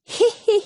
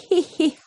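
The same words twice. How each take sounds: First: High, teasing hee-hee laugh; mocking laughter. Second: Mocking laughter, dropping. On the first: Big brother laughing at his sister's bird, high mocking laugh. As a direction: cackle at the bird. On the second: Big brother still laughing at the ostrich, mocking giggle. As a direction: keep the laugh rolling down. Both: A narrator's reading. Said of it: "Brother Tom joined in".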